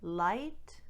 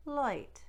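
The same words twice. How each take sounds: First: Said in the usual way. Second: Newfoundland "light" said like loit; Newfoundland accent. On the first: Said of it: "the difference between I". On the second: Shown as a demonstration. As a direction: round the start of "light" to aw. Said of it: "and oi".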